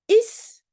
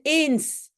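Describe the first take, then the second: First: The word is reduced to a short 'is'. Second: The word is said in its full form. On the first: "on prononce souvent simplement is" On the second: "au lieu de eens"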